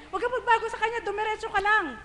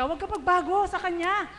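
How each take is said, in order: First: Higher, laughing repeat of "Huwag ka pagbago sa Kanya"; a higher, laughing insistence; emphatic with a laugh. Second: Said in the usual way. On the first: Real, not acted. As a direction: press the point home, beaming. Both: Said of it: "repeated for emphasis".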